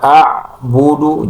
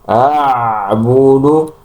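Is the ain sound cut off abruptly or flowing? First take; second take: cut off; flowing. First: The ain sound stops abruptly with no airflow. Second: The ain sound continues with audible flowing voice. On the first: The speaker calls it wrong. "a'budu mentok di ain tanpa ada aliran, eh, itu salah" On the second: The speaker calls it right. "yang benar adalah dialirkan"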